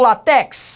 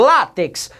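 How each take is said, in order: First: The stress is on the last syllable. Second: The stress is on the first syllable. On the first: The speaker calls it wrong. "Não falo" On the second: The speaker calls it right. "O acento está na segunda de trás para frente"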